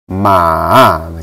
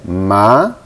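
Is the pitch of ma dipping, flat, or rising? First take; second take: dipping; rising. First: The pitch falls first, then rises. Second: The pitch rises through the syllable. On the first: "nada ketiga ini tanda gini" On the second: "nada kedua itu naik"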